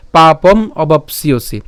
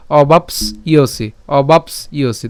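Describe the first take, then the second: First: "পাপম অবাপসিয়সি" slow, with obapsiosi unbroken; joined pronunciation. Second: "অবাপস ইয়সি" slowly in two parts, obaps, then iosi; split pronunciation. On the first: Teacher now says it all together, "পাপম অবাপসিয়সি" slow and joined. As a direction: run s straight into iosi in "পাপম অবাপসিয়সি". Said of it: "আমরা একসাথে উচ্চারণ করব". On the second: Teacher breaks the word for learners, "অবাপস ইয়সি" slow and split after s. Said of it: "তাহলে ইয় এবং হচ্ছে সি". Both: Shown as a demonstration.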